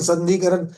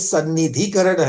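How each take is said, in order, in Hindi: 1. शब्द 'sandhi' से शुरू होता है और एक अक्षर छूट जाता है। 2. शब्द 'sanni' से शुरू होता है, उसके बाद 'dhi' आता है। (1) "संधिकरण नहीं।" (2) "ये सन्निधिकरण है।"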